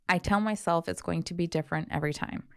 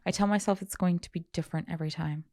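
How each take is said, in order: First: It is read in a natural speaking voice. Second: It is read in a put-on character voice. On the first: The speaker calls it right. "Let me try again" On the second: The speaker calls it wrong. "I was reading in that voice"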